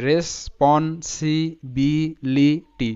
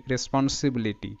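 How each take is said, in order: First: রেসপন্সিবিলিটি drawn out slowly with short ই sounds; teacher modelling রেসপন্সিবিলিটি slowly; slow syllable-by-syllable. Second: Said in the usual way. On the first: Shown as a demonstration. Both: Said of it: "short sound ই হচ্ছে".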